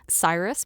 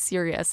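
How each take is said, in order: First: The name sounds like 'Cyrus', two syllables. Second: The name sounds like 'Sirius', three syllables. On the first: This is how it was guessed from reading. The speaker calls it wrong. "I pronounced it as a child" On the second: This is how it is actually said. The speaker calls it right. "hearing it's, oh, it's Sirius"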